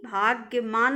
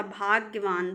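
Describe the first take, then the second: First: भाग्यमान ending in "maan"; wrong pronunciation. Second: भाग्यवान ending in "vaan"; correct pronunciation. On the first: Teacher showing students the error, भाग्यमान with "maan". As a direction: put an m in the last syllable of भाग्यमान. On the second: Teacher correcting students, भाग्यवान with "vaan". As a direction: put a v in the last syllable of भाग्यवान. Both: Shown as a demonstration. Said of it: "भाग्यमान नहीं होता".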